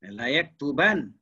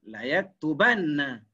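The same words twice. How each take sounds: First: "yaktuban" ending on a single, light n; light nun. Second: "yaktubanna" with a long, held double n before a; heavy doubled nun. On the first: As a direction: stop "yaktuban" on the n, no final vowel. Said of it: "Kalau yang nipis". (sebut "yaktuban" dengan nun nipis) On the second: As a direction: lean slowly on the nn in "yaktubanna". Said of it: "dia ada yang tebal". (sebut "yaktubanna" dengan nun tebal) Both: Shown as a demonstration.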